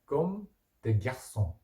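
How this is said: It is pronounced the French way. "프랑스어 발음으로는 comme des garçons 이렇게 하면 됩니다"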